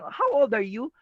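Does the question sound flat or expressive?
expressive. It is asked expressively, with questioning intonation.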